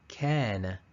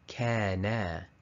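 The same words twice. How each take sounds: First: The final vowel is kept short. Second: The final vowel is stretched out long. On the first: The speaker calls it right. "the correct answer here is kana" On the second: The speaker calls it wrong. "the wrong one, the mistake, is kana"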